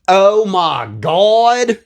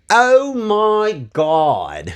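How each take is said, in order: First: It is said in a southern accent. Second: It is said in a plain accent.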